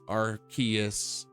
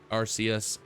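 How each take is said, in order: First: The middle consonant is a hard K sound. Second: The middle consonant is a soft S sound. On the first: The speaker calls it wrong. "R K S" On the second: The speaker calls it right. "R C S, R C"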